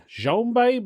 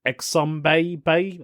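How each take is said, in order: First: Xombabe tried high, then dropping off; trying out a name. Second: Exombabe said slowly, with a questioning rise; drawn-out, testing Exombabe; trying another pronunciation. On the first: Reading a Reddit username to listeners, unsure how to say it. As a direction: sound out Xombabe with a high questioning pitch. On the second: Reading a Reddit username to listeners, second slow guess at it. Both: Shown as a demonstration. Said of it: "or it's spelled X O M B A E".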